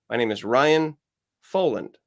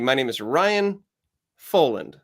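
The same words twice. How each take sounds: First: The delivery is flat with little pitch movement. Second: The delivery has some pitch variety. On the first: "it still is kind of flatlined" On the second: "a little variety"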